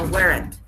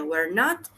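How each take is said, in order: First: It is said as one contracted word. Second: It is said as two full words. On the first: "con contraction" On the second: "sin contraction"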